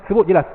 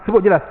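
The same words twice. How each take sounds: No difference in how they are said.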